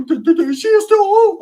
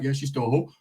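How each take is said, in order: First: Very high, loud cartoon voice; squeaky put-on concession. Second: Said in the usual way. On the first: Cousin conceding the point, loud squeaky put-on voice. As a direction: squeal it in an exaggerated impression.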